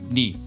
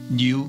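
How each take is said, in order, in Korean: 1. 모음은 'i'로 발음합니다. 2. 모음은 'yu'로 발음합니다.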